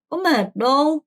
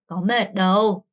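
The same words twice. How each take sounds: First: It is said harshly and bluntly. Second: It is said gently and softly.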